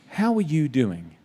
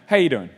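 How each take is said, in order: First: It sounds like a serious, caring question. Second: It sounds like a casual passing hello.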